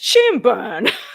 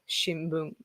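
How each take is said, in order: First: It is said with strong English-style stress. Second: It is said with flat, even Japanese pitch. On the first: "But Americans" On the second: "But Japanese people"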